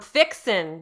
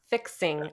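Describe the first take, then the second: First: The word ends with a plain n sound. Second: The word ends with an ng sound. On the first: "remove the G and put an apostrophe" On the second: "not fixing"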